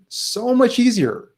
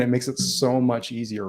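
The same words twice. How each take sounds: First: Much higher, slower, stressed on much; emphatic repeat. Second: Said in the usual way. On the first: Shown as a demonstration. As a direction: stretch out so much easier.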